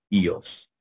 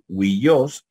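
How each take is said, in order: First: The word begins with a plain ee vowel. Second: The word begins with a wee glide. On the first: "diríamos ios" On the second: "en vez de decir huillos"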